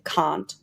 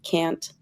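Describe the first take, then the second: First: The vowel sounds British, a long broad a. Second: The vowel sounds American, a short flat a. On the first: "the pronunciation I learned" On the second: "instead of"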